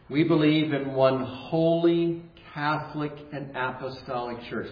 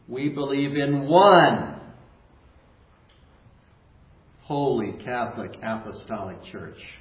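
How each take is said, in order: First: The sentence is said in a plain, even way. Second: The sentence is said with strong, forceful emphasis.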